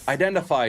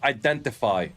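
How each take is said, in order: First: The middle t sound is dropped. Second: The middle t sound is clearly pronounced. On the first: "you should not pronounce your T's" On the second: "not identify"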